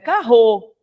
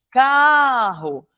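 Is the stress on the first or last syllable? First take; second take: last; first. First: The stress is on the last syllable. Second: The stress is on the first syllable. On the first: The speaker calls it wrong. "Não é carro" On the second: The speaker calls it right. "é carro. Paroxítona"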